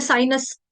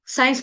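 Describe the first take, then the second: First: साइनस with an extra vowel before the final "s"; mimicked Kashmiri साइनस; Kashmiri pronunciation. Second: Said in the usual way. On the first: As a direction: split साइंस into sai-nas. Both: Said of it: "साइंस को बोलते हैं साइनस".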